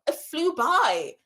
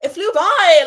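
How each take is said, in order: First: Said in the usual way. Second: Louder, higher burst of excitement; excited repeat. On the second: Real, not acted. Streamer marvelling at four hours to her chat. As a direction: belt it out with delight.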